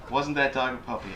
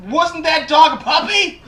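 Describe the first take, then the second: First: Said in the usual way. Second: Loud, high, slow blurt; awkward neighbor's strained outburst; bungling awkward neighbor. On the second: Acted. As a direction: force the question out far too loud and high. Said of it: "bungling, you know, trying to get words out".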